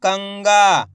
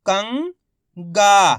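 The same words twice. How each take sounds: First: कंगा joined, long last vowel falling; blended whole word. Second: कंगा in two parts, "कं" rising, pause, long "गा"; very slowly sound out कंगा piece by piece; split into syllables. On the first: Teacher showing learners the result, कंगा blended together. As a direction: say कंगा as one word without a break. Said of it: "तो मिलके बन जाएगा". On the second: Teacher breaking कंगा down for learners, syllable by syllable. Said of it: "उच्चारण करके ही पढ़ सकते हो". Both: Shown as a demonstration.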